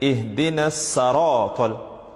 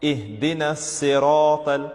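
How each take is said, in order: First: The second word begins with an a vowel. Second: The second word begins with an i vowel. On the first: The speaker calls it wrong. "people tend to make a mistake where they read it as" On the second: The speaker calls it right. "The right way to read it is with a kasra"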